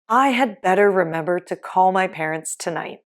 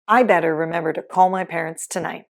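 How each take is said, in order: First: The word 'had' is said in full. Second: The word 'had' is left out entirely.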